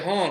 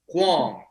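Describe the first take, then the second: First: The name is said with a 'hong' sound. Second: The name is said with a 'hwahng' sound. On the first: This is the host's own version of the name. "but you say Hong" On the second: This is the name's original Chinese pronunciation. "So in Chinese, that, that's how you say it"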